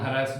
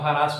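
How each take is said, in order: First: The word is said in an American pronunciation. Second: The word is said in an Indian pronunciation. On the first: "American बोले कि हम हैरेस बोलेंगे" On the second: "India वाले क्या, हम हरास बोलेंगे"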